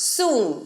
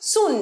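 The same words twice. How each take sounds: First: The vowel is drawn out long. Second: The vowel is short and clipped. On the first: The speaker calls it right. "সুনটা একটু দীর্ঘায়িত উচ্চারণ হবে" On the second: The speaker calls it wrong. "সুন নয়"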